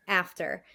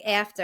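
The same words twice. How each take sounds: First: Said in the usual way. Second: Long Island "After" with a tense, raised first vowel; Long Island accent. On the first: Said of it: "and then I would fix it". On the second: Shown as a demonstration. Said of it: "So I would say, like".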